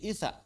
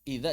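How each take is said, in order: First: The middle consonant is a heavy emphatic 't'. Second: The middle consonant is a soft 'dh' sound.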